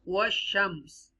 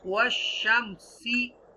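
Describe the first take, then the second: First: The word ends on a consonant, vowel dropped. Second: The word ends with a short final vowel. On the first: The reader stops at this word. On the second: The reading continues without stopping.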